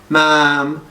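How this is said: The cry is flat and monotone.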